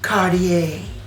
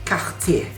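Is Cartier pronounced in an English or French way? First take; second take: English; French. First: It is pronounced the American English way. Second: It is pronounced the French way. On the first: "versi dari Marilyn Monroe" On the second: "pelafalan Prancis"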